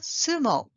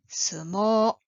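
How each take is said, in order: First: The last vowel is short. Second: The last vowel is long. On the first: The speaker calls it wrong. "not sumo" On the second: The speaker calls it right. "The last vowel sound is long"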